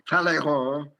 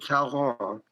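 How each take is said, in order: First: The name is pronounced the French way. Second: The name is pronounced in an anglicized way. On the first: "the French say Talleyrand" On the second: "other people pronounce it Talleyrand"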